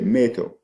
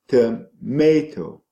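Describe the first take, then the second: First: The weak first syllable is dropped entirely. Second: The weak first syllable is said in full. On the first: "that is taken out. So the child will say meto" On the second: "t with the schwa is um, is unstressed"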